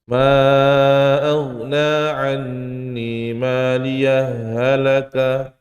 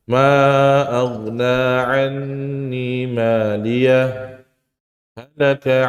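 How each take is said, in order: First: The two h sounds are merged into one. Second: Both h sounds are pronounced clearly and separately. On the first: The speaker calls it wrong. "Enggak boleh" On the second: The speaker calls it right. "Hak pertamanya dibaca jelas, hak keduanya dibaca je, jelas"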